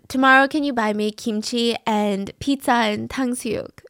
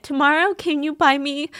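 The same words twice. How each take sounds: First: Said in the usual way. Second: Real emotion welling up while reading a text; getting choked up mid-sentence. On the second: Real, not acted. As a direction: voice catching on the words, pitch up. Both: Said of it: "I don't know why I'm so emotional".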